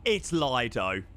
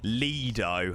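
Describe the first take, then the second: First: Lido slow, said LY-doh; drawn-out LY-doh for Lido; insistent correction. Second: Lido said LEE-doh, long ee; insistent LEE-doh for Lido; corrected pronunciation. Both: Shown as a demonstration. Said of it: "it's pronounced Lido".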